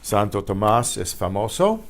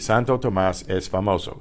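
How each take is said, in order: First: The pitch rises at the end. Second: The pitch falls at the end. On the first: It asks whether something is true. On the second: It states that something is true.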